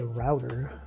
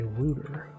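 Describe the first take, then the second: First: The word is said in a non-British way. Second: The word is said in a British way. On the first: "We say router" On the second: "They say router"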